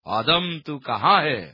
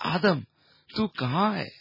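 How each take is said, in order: First: It is said in a harsh, threatening growl. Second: It is said in a sorrowful, groaning voice. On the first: It is a stern demand from an angry authority. The speaker calls it wrong. "जैसे कोई सुरक्षा अधिकारी किसी bank के लुटेरे के सिर पर पिस्तौल अड़ाकर बोलता है" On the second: It is a lament from a heartbroken father. The speaker calls it right. "एक पिता के टूटे हुए हृदय के करहाने के स्वर"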